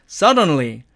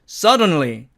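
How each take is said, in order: No difference in how they are said.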